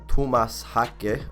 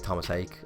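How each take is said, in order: First: The surname is said carefully, in its intended pronunciation. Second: The surname is said casually, in an anglicized pronunciation. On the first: This is how the name is supposed to be pronounced. "I'm gonna say it like that because I remember I got a voice note before that told me how to pronounce it" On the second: This is the speaker's habitual way of saying it. "I always just say Thomas Hake"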